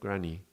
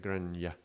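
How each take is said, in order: First: The word ends in a plain ee vowel. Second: The word ends with a y glide sound. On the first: The speaker calls it right. "It's more like a e" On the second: The speaker calls it wrong. "It's not so much like a granya"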